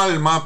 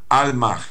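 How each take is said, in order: First: The word ends plainly on the vowel. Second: The word ends with a slight breathy h. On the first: "como alma" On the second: "pero con una pequeña cadencia de J final"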